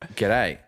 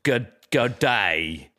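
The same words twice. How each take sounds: First: It is said in a natural Australian accent. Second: It is said in an American imitation of Australian. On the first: "I was like" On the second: "they're like"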